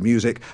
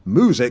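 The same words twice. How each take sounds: First: It is said with a 'y' sound after 'm'. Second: It is said with no 'y' sound after 'm'. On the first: "instead of music" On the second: "drop the y sound after certain consonants"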